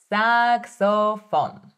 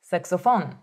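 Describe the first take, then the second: First: "Saxophone" drawn out slowly, every syllable clear; slow model word; slow and careful. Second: Said in the usual way. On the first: Shown as a demonstration. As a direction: stretch it for the learner. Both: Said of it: "focusing on my pronunciation".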